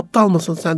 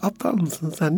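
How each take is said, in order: First: It is said in a hard, harsh tone. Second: It is said in a soft, smiling tone. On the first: The words feel like an insult. The speaker calls it wrong. "katı ses tonuyla" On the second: The same words feel gentle and kind. The speaker calls it right. "böyle yumuşak bir ses tonuyla gülümseyerek"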